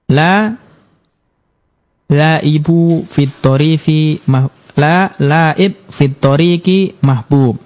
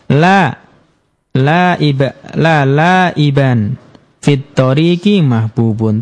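First: The words end bare, with no vowel ending. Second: The words end with -an and -un endings. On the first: The speaker calls it wrong. "Jadi disukun, maka ini salah" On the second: The speaker calls it right. "Yang benar"

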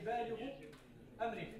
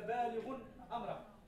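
First: The first word ends without an added n sound. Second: The first word ends with an added n sound.

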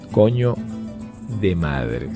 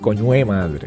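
First: Each word is said fully and separately. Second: The words are blended together in casual speech. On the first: The speaker calls it wrong. "no se dice así" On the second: The speaker calls it right. "Esa sería la expresión utilizada por el venezolano"

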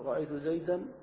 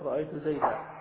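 First: The last word ends with an n sound. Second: The last word ends with a long vowel. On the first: This is the form used mid-sentence. "فيقول في النصب" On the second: This is the form used when stopping. "فيقف"

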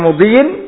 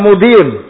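First: The word ends with an -in sound. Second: The word ends with an -un sound. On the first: The word is genitive, joined to the preceding noun. "Boleh dibaca wa mudiyin berarti ma'tuf pada apa? Amrin" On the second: The word is nominative, joined to the subject. "Boleh juga dibaca wa mudiyun"

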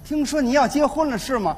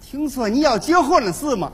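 First: It is spoken in a Beijing accent. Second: It is spoken in a Tianjin accent. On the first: "北京的大姑娘说话非常好听" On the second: "到了天津就变味儿了"

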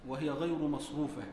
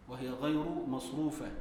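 No difference in how they are said.

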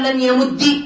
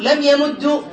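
First: The verb ends with a short i vowel. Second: The verb ends with a short u vowel. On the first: It avoids two silent consonants meeting. "من كسر" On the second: It matches the vowel on the first consonant. "من ضم"

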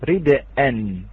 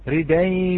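First: The d is vowelless, then a glottal stop follows. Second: The d takes the vowel, with no glottal stop. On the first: This is the word's original form. "أصلها رد أن، همزة وقبلها دال ساكنة" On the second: This is the form read with the hamza's vowel moved. "نقلنا حركة الهمزة إلى الدال ثم حذفنا هذه الهمزة"

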